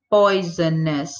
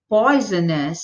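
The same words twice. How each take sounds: First: Poisonous said slowly and lower, each of its three syllables clear; syllables shown. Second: Said in the usual way. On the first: Shown as a demonstration. Teacher shows students how many syllables poisonous has, slow and careful. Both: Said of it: "o adjetivo tem três sílabas".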